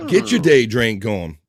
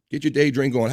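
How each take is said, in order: First: Slow and louder, every word of "Get your day drink on" hit hard; slow emphatic. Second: Said in the usual way. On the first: Shown as a demonstration. Host urging the new girl to drink, slow and louder.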